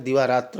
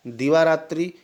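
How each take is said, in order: First: दिवारात्र ending in short "tra"; correct tra ending. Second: दिवारात्रि ending in "tri"; wrong i ending. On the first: Teacher correcting students, दिवारात्र ending in tra. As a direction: drop the final i, say दिवारात्र. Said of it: "दिवारात्र होता है". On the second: Teacher showing the mistake, दिवारात्रि ending in tri. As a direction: say दिवारात्रि with a final i sound. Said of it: "ऐसे नहीं होता है". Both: Shown as a demonstration.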